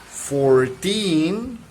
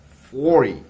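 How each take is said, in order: First: Put-on "Fourteen" rising and louder on "teen"; "Fourteen" with a loud rising end; stress at the end. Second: "Forty" loud on "For", then falling; "Forty" stressed first, falling; stress at the start. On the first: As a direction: punch and lift "teen". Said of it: "it rises". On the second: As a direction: hit "For" and let "ty" fall. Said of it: "It decreases the tone of voice". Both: Shown as a demonstration.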